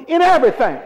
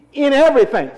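First: Raised, higher and louder insistent call; stronger emphasis. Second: High, loud call of the verse; emphatic prompt. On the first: Preacher pressing a weak congregation to say it, stronger emphasis. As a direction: push it out strongly to rouse them. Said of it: "come on, you're not strong". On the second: Preacher prompting the congregation to say it, emphatic. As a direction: call it out for the crowd to follow. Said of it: "you're not strong to say". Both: Shown as a demonstration.

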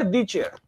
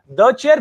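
First: The said as thee before chair, the wrong way; the chair, with the stretched into thee. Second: The said as thuh, short schwa, before chair; The chair, with The as a quick thuh; the before consonant. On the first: Teacher contrasting the wrong thee form for students. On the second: Teacher modelling the correct thuh before a consonant. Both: Shown as a demonstration. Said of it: "if the first letter is a consonant, you'll say the".

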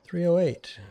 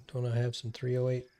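First: High, squeaky call of "Three oh eight"; squeaky readout. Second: Said in the usual way. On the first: Acted. Spotting ammo on the ground, squeaky high call. Reading ammo label aloud.

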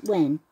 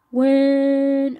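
First: Said in the usual way. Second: Loud mock shout of When. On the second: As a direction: blurt it out much louder. Jack voiced saying when loudly.

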